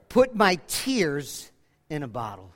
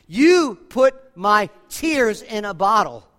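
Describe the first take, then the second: First: Said in the usual way. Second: You put my tears in a bottle, slower and louder, each word weighted; slow emphatic repeat. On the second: Shown as a demonstration. Preacher repeating the verse to the congregation, slow and emphatic. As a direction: lean into "You" and let the line land slowly.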